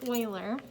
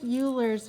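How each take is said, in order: First: The name is said the German way. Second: The name is said the English way, as spelled. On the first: This is how it is said in his native tongue. The speaker calls it right. "the way that you pronounce his name in his native tongue is Euler" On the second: This is how some people in the United States say it. The speaker calls it wrong. "it looks like Euler's method, and some people do pronounce it that way here in the United States"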